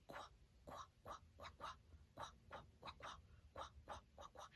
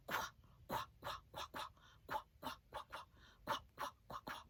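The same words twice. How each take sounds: First: Faint breathy "quack" chant; whispered quack. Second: Stronger breathy "quack" chant; loud whisper. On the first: Teacher demonstrating Q sound: whisper. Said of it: "say the sound". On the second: Teacher showing louder whisper: loud whisper. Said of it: "as loud a whisper as I can". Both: Shown as a demonstration.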